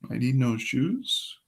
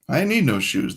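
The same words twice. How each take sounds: First: The voice rises at the end like a question. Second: The voice falls at the end like a statement.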